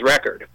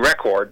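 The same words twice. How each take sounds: First: It is said with an American accent. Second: It is said with a British accent. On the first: "he sounds as American as you or I. He probably says record" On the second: "he would say record because he sounds very British"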